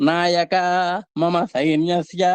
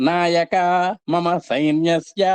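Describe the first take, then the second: The two takes are said the same way.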